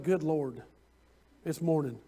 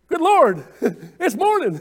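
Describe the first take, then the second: First: The voice sounds weary and annoyed. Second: The voice sounds bright and cheerful. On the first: The morning feels like a burden. The speaker calls it wrong. "a lot of times people will get up and say" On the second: The morning is welcomed with thanks. The speaker calls it right. "or you could say"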